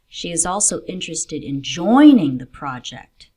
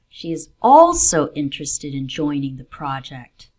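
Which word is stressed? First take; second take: joining; also. First: The stress falls on the word joining. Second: The stress falls on the word also. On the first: She wants to take part, not just learn. "not just in learning about the project, but in joining and contributing to it" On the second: The project is one of several interests. "There are two things she's interested in, and the project is one of them"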